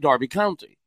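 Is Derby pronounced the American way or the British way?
British. Derby is pronounced the British way. The speaker calls it right. "I'd say"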